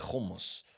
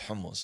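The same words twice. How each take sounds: First: It starts with a scraping kh sound. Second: It starts with a breathy throat h sound. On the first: This is how Israelis say it. The speaker calls it wrong. "they have kha" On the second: This is how the speaker's own people say it. The speaker calls it right. "no, son, it's hummus"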